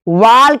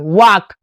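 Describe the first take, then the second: First: The L sound is pronounced in the word. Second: The L sound is left out of the word. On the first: The speaker calls it wrong. "वाल्क नहीं पढ़ेंगे" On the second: The speaker calls it right.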